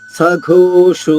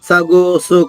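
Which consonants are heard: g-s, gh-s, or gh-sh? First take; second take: gh-sh; g-s. First: It has an aspirated gh and an sh sound. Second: It has an unaspirated g and a plain s. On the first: The speaker calls it right. "ఒత్తుఘ అనమాట. ఓకారంతో సఘోషో మళ్ళా షో కూడా ఓకారంతో" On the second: The speaker calls it wrong. "లేదా సగోసు కాదు. అక్కడ మహాప్రాణం ఉండాలి"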